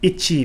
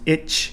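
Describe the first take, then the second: First: Every syllable is fully pronounced, including the final vowel. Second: The final vowel is dropped, ending on the consonant.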